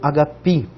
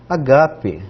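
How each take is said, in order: First: It is said with the modern Greek pronunciation. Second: It is said with the older, classical pronunciation.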